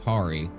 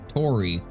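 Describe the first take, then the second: First: The vowel sounds like the 'a' in 'starry'. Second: The vowel sounds like the 'o' in 'story'. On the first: The speaker calls it wrong. "Not Tari, because it's just our dumb American brains" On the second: The speaker calls it right. "that's how you actually pronounce it"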